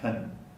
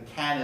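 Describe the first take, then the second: First: The vowel is weak and reduced. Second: The vowel is full and clear. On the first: "becomes can" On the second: "the can is reduced"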